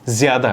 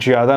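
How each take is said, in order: First: The word begins with a 'z' sound. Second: The word begins with a 'j' sound. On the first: The speaker calls it right. "ज़्यादा है, ठीक है" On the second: The speaker calls it wrong. "ज़्यादा नहीं"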